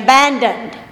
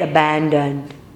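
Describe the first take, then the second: First: The word is said at ordinary pitch. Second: The word is said in a low, deep voice. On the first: "I could change the atmosphere right now by saying abandoned" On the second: "The lower I say the tone, the stronger and deeper that frequency will get"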